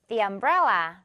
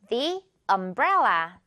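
First: It is said quickly and smoothly linked. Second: It is said slowly and carefully.

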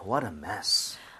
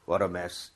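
First: It is said with strong exclamatory feeling. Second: It is said flatly, without feeling.

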